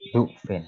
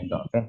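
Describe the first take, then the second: First: The first vowel is a u sound. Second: The first vowel is an a sound. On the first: "boleh dhufin" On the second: "boleh dhofin"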